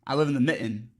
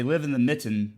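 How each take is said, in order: First: "mitten" with the T swallowed, as in Michigan; dropped middle T. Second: Said in the usual way. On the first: Shown as a demonstration. Showing how Michigan talks, "mitten" with the T dropped. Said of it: "the T's just disappear". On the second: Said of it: "something about losing the middle, uh, consonants".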